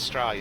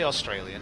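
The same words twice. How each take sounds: First: The opening vowel is dropped, starting with 's'. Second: The word begins with a full 'aw' sound. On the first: The speaker calls it right. "There's no A U, it starts with S" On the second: The speaker calls it wrong. "we don't say Australian"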